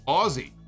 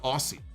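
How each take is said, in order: First: The middle consonant is a buzzing Z sound. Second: The middle consonant is a hissing S sound. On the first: The speaker calls it right. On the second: The speaker calls it wrong. "It is not Aussie"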